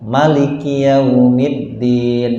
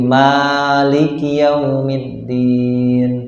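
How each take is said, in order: First: The vowel after the first m is kept short. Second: The vowel after the first m is drawn out long. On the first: It follows another accepted reading tradition. "itu dipendekkan" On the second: It follows one accepted reading tradition. "memanjangkan mimnya"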